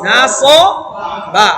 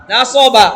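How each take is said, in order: First: Very slow, each syllable drawn out; broken into syllables. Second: Said in the usual way. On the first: Shown as a demonstration. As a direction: spell it out slowly for learners. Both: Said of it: "এবার এটা কি হবে?".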